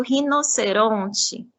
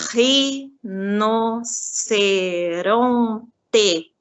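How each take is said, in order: First: Said in the usual way. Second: RINOCERONTE very slowly as RI... NO... CE... RON... TE; teacher counting out each syllable of "rinoceronte". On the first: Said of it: "eu posso escrever, por exemplo". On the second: Shown as a demonstration. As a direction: drag "rinoceronte" out into five separate, stretched syllables. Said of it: "eu conto as sílabas".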